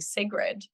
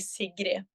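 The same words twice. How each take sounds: First: The name is said with an English pronunciation. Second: The name is said with a Norwegian pronunciation. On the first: This is the form the speaker usually hears. "I'm so used to the pronou- pronunciation of my name being" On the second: This is the original form in the home language. "but in Norwegian it would be"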